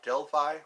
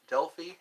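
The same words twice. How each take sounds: First: Delphi said DEL-fye; Delphi with "fye" as the last syllable; alternative pronunciation. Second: Delphi said DEL-fee; Delphi with "fee" as the last syllable; alternative pronunciation. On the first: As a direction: end Delphi on an eye sound. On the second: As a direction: end Delphi on an ee sound. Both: Shown as a demonstration. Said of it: "I think that's how it's pronounced".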